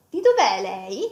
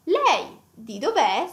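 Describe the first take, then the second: First: "Di dov'è" first, "lei" placed last with a light rise; lei moved to the end. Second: "Lei" at the front, stressed with a rise, then "di dov'è" slowly. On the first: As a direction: put "lei" last, as an afterthought. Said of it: "move the lei at the end". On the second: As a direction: lead with "Lei" and lean on it. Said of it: "we want to maybe stress the lei". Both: Shown as a demonstration.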